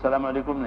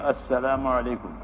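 First: The greeting starts directly with 'salam'. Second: The greeting starts with an 'as' sound. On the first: The speaker calls it wrong. "सलाम अलैकुम नहीं, ... गलत कलमा है" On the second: The speaker calls it right. "सलाम सही क्या है कि अस्सलामु अलैकुम, ये सही है"

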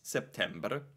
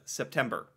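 First: The word is said with a Norwegian rhythm. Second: The word is said with an American rhythm. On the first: The speaker calls it right. "it's September. Like a different rhythm" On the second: The speaker calls it wrong. "Instead of September"

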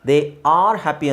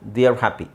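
First: 'They are' is said as two full words. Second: 'They are' is contracted into one short syllable. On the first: "ದೇ ಆರ್ happy ಅಂತ ಹೇಳೋದ್ರ ಬದಲು" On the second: "ಅಲ್ಲಿ ನೋಡಿ ಆರ್ ಅಂತ ಹೇಳಲ್ಲ ನಾನು"

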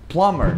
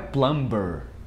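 First: The middle has only an m sound, no b. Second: The middle has an audible b after the m. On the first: The speaker calls it right. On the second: The speaker calls it wrong.

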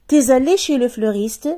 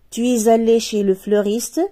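First: 'Tu es' is squeezed into one syllable. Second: Both syllables of 'tu es' are pronounced.

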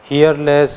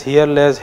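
No difference in how they are said.

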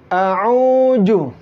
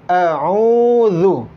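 First: The final syllable is said with a j. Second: The final syllable has the tongue tip out, th-like. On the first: The speaker calls it wrong. "Sering dibaca ju" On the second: The speaker calls it right. "Yang benar adalah a'udzu"

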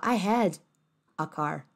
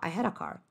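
First: The words are said slowly and kept separate. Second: The words are said quickly and run together. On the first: "quando você quer falar pausado" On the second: "quando você quiser falar uma coisa meio rápida"

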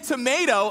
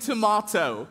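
First: The word is said with an American accent. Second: The word is said with a British accent. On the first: This is how the children used to say it. "Kids stopped saying tomato" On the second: This is how the children say it after watching the show. "they started saying tomato"

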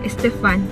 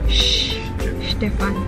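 First: The name is said with a Filipino-style pronunciation. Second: The name is said with a German pronunciation. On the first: The speaker calls it wrong. "Filipino people will read that as Stefan" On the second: The speaker calls it right. "But here in Germany, that should be Stefan"

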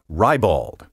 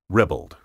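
First: The word is pronounced as it is spelled. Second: The word is pronounced to rhyme with 'scribbled'. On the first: The speaker calls it wrong. "the indelicate spelling pronunciation" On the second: The speaker calls it right. "The word should rhyme with scribbled and dribbled"

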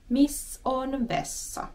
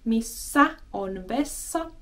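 First: The first word is shortened to one syllable. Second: The first word is said in full, two syllables. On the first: This is the casual spoken form. "you drop the last two letters" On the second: This is the formal written-language form. "kirjakieli it would be missä on vessa"

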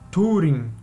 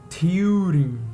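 First: The first vowel is a pure oo sound. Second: The first vowel is not a pure oo. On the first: The speaker calls it right. "deveria ser pronunciado U, aqueles dois Os do inglês" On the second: The speaker calls it wrong. "e não"

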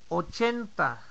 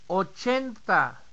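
Both takes have the same delivery.

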